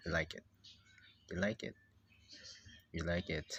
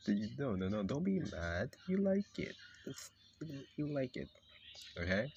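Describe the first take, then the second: First: Low, firm statement; firm insistence. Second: Coaxing insistence. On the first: Telling the reluctant character its opinion, low firm insistence. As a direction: state it low, allowing no argument. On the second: Placating the mad character. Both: Acted.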